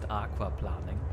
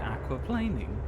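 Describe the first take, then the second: First: The word is pronounced with German sounds. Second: The word is pronounced with English sounds. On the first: "we just pronounce it German" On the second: "It should be aquaplaning"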